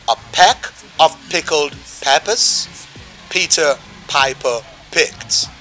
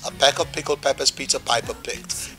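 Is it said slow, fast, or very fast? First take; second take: slow; fast. First: It is said at a slower pace. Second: It is said a little faster.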